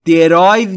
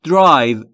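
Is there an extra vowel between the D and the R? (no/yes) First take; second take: yes; no. First: An extra vowel sound separates the D and R. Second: The D and R join with no vowel between. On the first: The speaker calls it wrong. "پس تلفظ درستش drive نیست" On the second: The speaker calls it right. "بین D و R صدایی وجود نداره"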